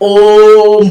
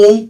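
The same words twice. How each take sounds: First: The vowel is prolonged and drawn out. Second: It is said short and plain.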